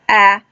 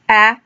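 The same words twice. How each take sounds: First: The vowel is short, as in 'at'. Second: The same.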